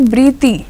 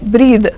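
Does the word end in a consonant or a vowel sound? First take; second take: vowel; consonant. First: The word ends with an extra vowel sound. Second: The word ends with a consonant sound. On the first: The speaker calls it wrong. "we don't say breathy" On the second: The speaker calls it right. "we say breathe"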